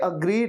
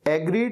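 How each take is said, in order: First: The word begins with an 'uh' vowel. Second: The word begins with an 'eh' vowel. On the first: The speaker calls it right. "ये अग्रीड है" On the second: The speaker calls it wrong. "एग्रीड नहीं है"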